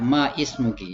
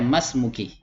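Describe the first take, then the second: First: The words are said separately with a glottal break. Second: The words are run together as one word. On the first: The speaker calls it wrong. "jangan dibaca ma ismuki ya" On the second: The speaker calls it right. "tapi dibaca masmuki"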